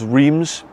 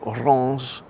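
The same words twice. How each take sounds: First: It is said with an English pronunciation. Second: It is said with a French pronunciation. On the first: The speaker calls it wrong. "I thought it was Reims, how it's spelt in English" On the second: The speaker calls it right. "in French it's pronounced something like Reims, which sounds completely different"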